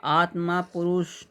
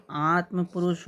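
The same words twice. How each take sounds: First: आत्मा पुरुष with long "maa"; wrong compound form. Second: आत्म पुरुष with short "ma"; correct compound form. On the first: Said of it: "नहीं". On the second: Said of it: "होता है सही word". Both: Shown as a demonstration.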